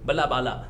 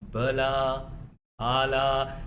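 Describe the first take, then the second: First: The words are spoken quickly with short vowels. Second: The words are spoken slowly with drawn-out vowels. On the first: "जल्दी बोल रहे हो" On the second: "धीरे धीरे बोलते हो"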